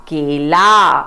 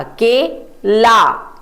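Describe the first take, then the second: First: Said in the usual way. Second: के and ला said apart, slowly; syllable by syllable. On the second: Shown as a demonstration. Teacher to children, sounding out the syllables slowly. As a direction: split के ला into its syllables. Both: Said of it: "क को ए की मात्रा".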